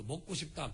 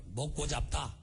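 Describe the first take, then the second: First: Said in the usual way. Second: Jeolla dialect, saying 잡다 for 싶다; a quick demo of Jeolla regional speech. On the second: Shown as a demonstration. (전라도 사투리로) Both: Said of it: "그 전라도 사투리".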